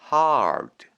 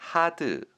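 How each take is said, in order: First: The vowel is followed by a curled r sound. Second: The vowel has no r sound after it. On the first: The speaker calls it right. "R은 최대한 혀를 굴려주시는 느낌으로" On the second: The speaker calls it wrong. "hard 아니고요"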